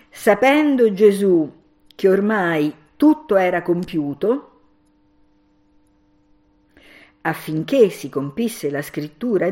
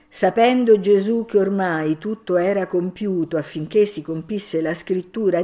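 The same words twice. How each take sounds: First: There is a pause right after 'compiuto'. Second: It flows on without a pause after 'compiuto'.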